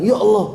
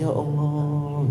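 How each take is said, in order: First: It sounds happy and delighted. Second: It sounds sad and sorrowful.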